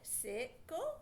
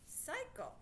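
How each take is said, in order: First: The first vowel is a short i sound. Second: The first vowel is a long i sound. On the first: The speaker calls it wrong. "Not a word, is it?" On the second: The speaker calls it right. "Try the I sound"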